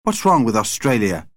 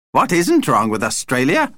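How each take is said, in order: First: Put-on mildly affronted boy's challenge; indignant. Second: Higher, scornful vampire retort; contemptuous. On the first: Paul challenges the vampire's horror, indignant. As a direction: demand it with a touch of indignation. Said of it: "demanded Paul indignantly". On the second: Vlad answers Paul's challenge, contemptuous. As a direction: throw the question back with scorn. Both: A narrator's reading.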